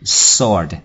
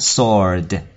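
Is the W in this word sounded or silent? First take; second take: silent; silent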